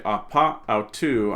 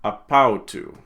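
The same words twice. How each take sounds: First: "apa" and "autu" as two separate words; unelided form. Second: "apautu" as one word, short vowel dropped; louder "apautu", "ap" gliding straight into "autu"; elided, run together. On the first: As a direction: keep both vowels between "apa" and "autu". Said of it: "I wouldn't say". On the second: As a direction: join it into a single word, "apautu". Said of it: "I'm gonna run those together". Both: Shown as a demonstration.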